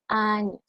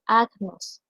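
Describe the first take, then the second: First: Años with ñ, the g and n merged into ñ; correct pronunciation. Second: Agnos with a hard g, as it is spelled; the wrong Spanish reading agnos; spelling pronunciation. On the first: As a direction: say it años, like Spanish year. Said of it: "debo de pronunciarla años". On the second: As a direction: say agnos letter by letter, g and n apart. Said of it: "si yo la leo en castellano". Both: Shown as a demonstration.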